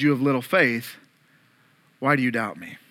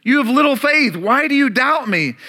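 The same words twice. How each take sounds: First: Low, soft "You have little faith" spoken tenderly; gentle rebuke. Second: Scolding. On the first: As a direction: correct him gently, close and quiet. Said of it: "Jesus reaches out and grabs him and says". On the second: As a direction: scold Peter with a raised voice. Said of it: "but then Jesus scolds him". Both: Acted.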